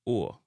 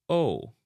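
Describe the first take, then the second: First: O opened into a "uo" glide; Jamaican long O. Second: Long O said as a gliding "oh"; English long O. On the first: Teacher showing viewers the Jamaican long O, "uo" sound. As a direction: say O as "uo", Jamaican style. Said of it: "the Jamaican long O get pronounced". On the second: Teacher showing viewers the English long O, English vowel. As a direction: say O with the rounded English glide. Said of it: "we pronounce the long O". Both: Shown as a demonstration.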